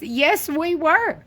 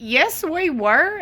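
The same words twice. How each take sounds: First: Stretched, high "yes, we were" with weight on "were"; a firm slow correction; slow emphatic yes we were. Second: Drawn out, "Yes, we were" high and slow; a firm slow correction; slow emphatic yes we were. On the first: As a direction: lean into "were", slowly and high. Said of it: "repeating the answer". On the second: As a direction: insist slowly on "Yes, we were", pitch up. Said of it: "answering with emphasis". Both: Acted.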